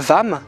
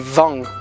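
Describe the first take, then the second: First: The word ends with a closed m sound. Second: The word ends with a nasal ng sound. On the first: The speaker calls it wrong. "essaye de ne pas faire cette erreur de, de dire le Vam" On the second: The speaker calls it right. "mais Vang"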